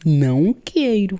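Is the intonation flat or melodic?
melodic. The phrase is said with a lively, melodic pitch. "Um brasileiro, quando vai negar uma coisa... Sempre tem uma entonação na palavra"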